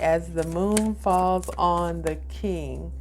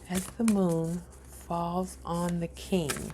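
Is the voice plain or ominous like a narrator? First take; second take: ominous; plain. First: It is said in an ominous, narrator-like voice. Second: It is said in a plain, ordinary voice.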